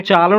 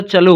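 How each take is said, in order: First: चालो with a long aa in the first syllable; wrong long first vowel. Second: चलो with a short, neutral first vowel; correct short first vowel. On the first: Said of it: "चालो नहीं होता". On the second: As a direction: keep the first vowel of चलो brief, "chuh-lo". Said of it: "चलो होता है". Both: Shown as a demonstration.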